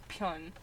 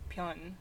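First: The first sound is a clear P. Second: The first sound is between a B and P. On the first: This is the English pronunciation of the name. "But in English, it's Pyun" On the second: This is the Korean pronunciation of the name. "In Korean, it's like a B-P kind of"

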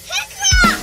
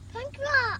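First: It is said loudly. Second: It is said quietly.

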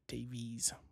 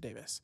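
First: The name is said as it is spelled. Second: The name is said like 'Davis'. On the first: This is how a reader would guess it. "It would actually be kind of how you'd read it" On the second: This is how the family says it. "But we pronounce it Davis"

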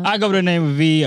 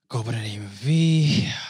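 First: It is said with high energy. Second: It is said with low energy.

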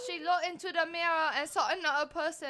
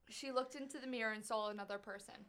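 First: It is said in a put-on foreign accent. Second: It is said in her natural accent.

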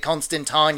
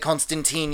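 First: The name is pronounced the British way. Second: The name is pronounced the American way. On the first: The speaker calls it right. "you say Constantine, you bloody Yanks" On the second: The speaker calls it wrong. "You don't say Constantine"

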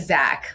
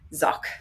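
First: The name is said like English Zach. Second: The name is said to rhyme with sock. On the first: The speaker calls it wrong. "Not like Zach, like an American Zach would be" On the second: The speaker calls it right. "So it's Zsak"

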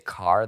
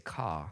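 First: The final R sound is clearly pronounced. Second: The final R sound is dropped entirely. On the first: "they don't say car" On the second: "like a softer R, ... they say ka"

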